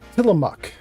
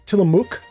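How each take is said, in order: First: The last syllable has a short uh vowel. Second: The last syllable has a long oo vowel. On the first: The speaker calls it right. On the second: The speaker calls it wrong.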